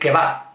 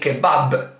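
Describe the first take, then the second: First: The final b sound is dropped entirely. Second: The final b sound is clearly pronounced. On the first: "we don't pronounce the last B. ... we say kebab" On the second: "We don't say kebab"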